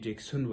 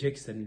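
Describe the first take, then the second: First: The last syllable has a rounded o vowel. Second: The last syllable has an open a vowel. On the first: This is the Persian-influenced form. The speaker calls it wrong. "فارسي کې جکسون وایي" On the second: This follows the original English pronunciation. The speaker calls it right. "خو موږ به یې جکسن لیکو"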